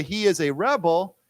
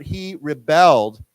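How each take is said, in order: First: "rebel" as REB-el, first syllable stressed; noun stress. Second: "rebelled" as ri-BELLED, second syllable stressed; verb stress. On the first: Teacher contrasting noun with verb, "rebel" stressed on REB. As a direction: put the weight on the REB of "rebel". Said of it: "So we say". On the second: Teacher contrasting verb with noun, "rebelled" stressed on BELLED. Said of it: "accent goes on the second syllable". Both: Shown as a demonstration.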